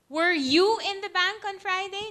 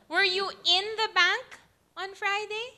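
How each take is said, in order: First: The word you carries the main stress. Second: The word in carries the main stress. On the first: The question is about this person rather than someone else. "Not me, but my sister was" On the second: The question is about being inside rather than nearby. "No, but I was near it"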